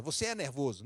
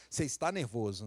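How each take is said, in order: First: "é" leaned on with a falling close; wrong way to say it. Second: "está" leaned on, gentle and even; right way to say it. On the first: Pastor showing the wrong way to tell someone off. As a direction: stress on é, labelling the person. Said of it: "Não, "Você está nervoso". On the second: Pastor showing the better way to correct someone. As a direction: stress on está, a passing state. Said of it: "Que aí é diferente". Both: Shown as a demonstration.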